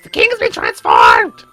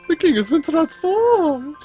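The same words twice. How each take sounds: First: It is said in a put-on Toad voice. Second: It is said in his normal voice.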